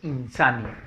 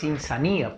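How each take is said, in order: First: The stress is on the syllable sa. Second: The stress is not on the syllable sa. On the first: The speaker calls it right. "La fuerza de voz está en la sa" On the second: The speaker calls it wrong. "no es insanía"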